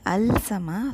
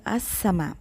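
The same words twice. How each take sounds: First: "al sama" with a clear l before s; lam wrongly sounded. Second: "as sama" with a doubled s, no l; lam assimilated. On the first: Teacher shows what we don't say, l pronounced. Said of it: "We don't say al sama". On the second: Teacher models the sun letter seen, lam silent. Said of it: "the lam is not pronounced". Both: Shown as a demonstration.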